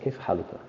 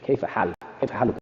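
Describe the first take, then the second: First: Said in the usual way. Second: كيف حالك rattled off fast; كيف حالك said fast and casual. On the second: Shown as a demonstration. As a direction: toss off كيف حالك quickly like everyday speech. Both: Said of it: "what's your condition".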